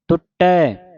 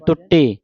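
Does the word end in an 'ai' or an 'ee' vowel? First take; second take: ai; ee. First: The word ends in an 'ai' vowel. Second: The word ends in an 'ee' vowel. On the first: The speaker calls it right. "ਪੜ੍ਹਨਾ ਹੈ ਟੁੱਟੈ" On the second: The speaker calls it wrong. "ਆਪਾਂ ਪੜ੍ਹ ਜਾਂਦੇ ਟੁੱਟੀ"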